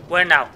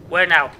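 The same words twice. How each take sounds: The two takes are said the same way.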